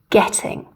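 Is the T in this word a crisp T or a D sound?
crisp T. The T is a clean, crisp T. "we would say getting"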